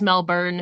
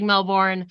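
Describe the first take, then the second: First: It is said with no r sound, Australian-style. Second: It is said with an r sound, American-style. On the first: The speaker calls it right. "I know it's Melbourne" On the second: The speaker calls it wrong. "my American accent is like Melbourne"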